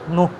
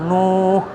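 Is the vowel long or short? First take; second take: Short; Long. First: The vowel is kept short. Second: The vowel is held long. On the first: The speaker calls it right. "harus pendek" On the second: The speaker calls it wrong. "bukan nuh, salah kalau panjang"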